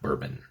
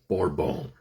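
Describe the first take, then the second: First: The word has an English-style pronunciation. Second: The word has a French-style pronunciation. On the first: It names the whiskey. The speaker calls it wrong. "It's not bourbon" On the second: It names the island's old French name. The speaker calls it right. "It's Bourbon"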